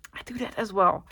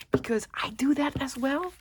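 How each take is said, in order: First: Said in the usual way. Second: Whispered aside, half to herself; whispered admission. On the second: Real, not acted. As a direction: let it slip out in a whisper. Confessing she does it too.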